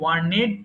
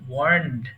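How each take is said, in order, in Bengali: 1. শেষের অংশটি একটি অতিরিক্ত শব্দাংশ, 'ned'। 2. শেষের অংশটি একটি মাত্র 'nd' ধ্বনি। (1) "এটা অনেকে ভুল করে ওয়ার্নেড পড়ে" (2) "এটা বলতে হবে ওয়ার্নড"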